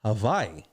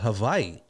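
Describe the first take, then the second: First: The middle consonant is a V sound. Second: The same.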